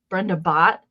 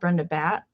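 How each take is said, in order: First: The surname's vowel sounds like in 'bought'. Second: The surname's vowel sounds like in 'bat'. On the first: The speaker calls it right. "I think it's actually bought. Like you bought something" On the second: The speaker calls it wrong. "it's not Brenda Bat"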